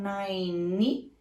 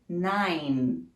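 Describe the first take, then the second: First: An extra vowel sound follows the final N. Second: The word stops cleanly on the final N. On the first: The speaker calls it wrong. "Você não pode falar nine" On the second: The speaker calls it right. "Você vai terminar no som do N sem pronunciar nenhum izinho"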